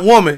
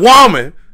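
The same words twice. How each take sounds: First: The word is said in a plain, ordinary way. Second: The word is said in a stylized soul-singer way. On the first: The speaker calls it wrong. "not woman" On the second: The speaker calls it right. "You got to say it like that"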